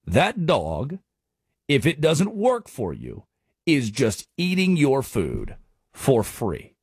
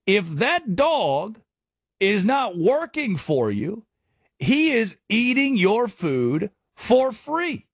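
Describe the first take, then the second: First: Slow closing punchline. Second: Slow, drawn out, each word leaned on; slow emphatic saying. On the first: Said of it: "repeats the saying". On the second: Host drives home the dog line to listeners, slow and emphatic. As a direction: spell out the moral slowly, higher. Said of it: "And my question". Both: Shown as a demonstration.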